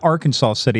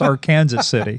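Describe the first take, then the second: First: The name ends with a 'saw' sound. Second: The name ends with a 'Kansas' sound. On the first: It is the state's usual name. The speaker calls it wrong. "It's not Arkansas City" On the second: It is the local name. The speaker calls it right. "It's Arkansas City"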